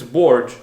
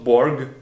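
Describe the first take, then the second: First: The name ends without a voiced G sound. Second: The name ends with a voiced G sound. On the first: The speaker calls it right. "it's Borg" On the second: The speaker calls it wrong. "not Borg, not with a G"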